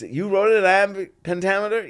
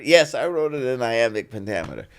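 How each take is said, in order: First: Higher, quick astonished echo; retold amazement, pitched up; incredulous question. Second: Quick, assured reply in his usual level; retold unfazed yes; matter-of-fact confirmation. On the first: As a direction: mimic disbelief at the achievement. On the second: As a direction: answer the doubter firmly and briskly.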